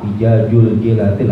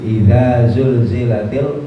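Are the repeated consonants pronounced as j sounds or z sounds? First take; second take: j sounds; z sounds. First: The consonants are pronounced with a j sound. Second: The consonants are pronounced with a z sound. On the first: The speaker calls it wrong. "banyak dari kita yang salah di dalam melafalkan huruf tersebut" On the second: The speaker calls it right. "Idza za dulu. Idza zul baru za"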